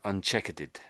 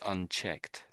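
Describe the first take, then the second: First: The word is said with an extra -ered ending. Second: The word ends sharply in a final t sound. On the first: The speaker calls it wrong. "you said it's something like um, uncheckered" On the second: The speaker calls it right. "the ending is tricky. So it's unchecked"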